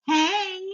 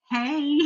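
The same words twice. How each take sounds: First: High, drawn-out tentative greeting; sheepish caller. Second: Higher, stretched mock-polite hey; wary reply greeting. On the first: Retold or imitated. Surgeon phoning his patient like an ex, sheepish. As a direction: imitate an awkward ex calling, pitched up. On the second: Patient answering the surgeon's unexpected call, wary. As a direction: echo the greeting back, less high. Her guarded echo of the greeting.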